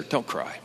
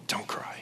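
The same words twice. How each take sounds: First: Soft, gentle comfort, much softer; tender. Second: Whispered gently, barely audible; tender whisper. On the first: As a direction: soothe a grieving mother softly. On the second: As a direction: hush her tears in a whisper. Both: Retold or imitated. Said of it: "The tenderness of Jesus".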